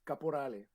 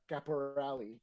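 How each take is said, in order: First: The name is said with Italian pronunciation. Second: The name is said with English pronunciation. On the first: "it's an Italian last name" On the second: "They pronounce the E for whatever reason"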